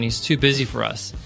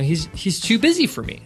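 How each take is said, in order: First: It sounds resentful and dismissive. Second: It sounds warm and admiring.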